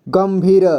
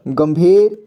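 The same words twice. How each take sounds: First: गंभीर split as "gam-bhee-ra"; गंभीर read piece by piece; sounded out. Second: Said in the usual way. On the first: Shown as a demonstration. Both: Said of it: "इसे क्या पढ़ेंगे?".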